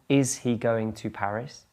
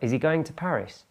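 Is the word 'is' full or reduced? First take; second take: full; reduced. First: The first word has a full, clear vowel. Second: The first word is short and weakened. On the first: "Strong form" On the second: "Weaker form"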